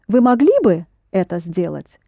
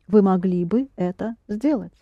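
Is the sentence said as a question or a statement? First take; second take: question; statement. First: It is said with question intonation. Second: It is said with statement intonation. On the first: It is a very polite request. "If you pronounce it as a question, it becomes a very polite request" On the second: The person was able to do it but did not. "it's not a question now, it's a statement"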